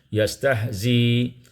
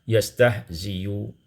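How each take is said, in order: First: The word stops with no vowel after the last sound. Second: The word ends with a faint, partly voiced vowel. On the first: "dibaca dengan sukun" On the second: "kita baca dengan rum"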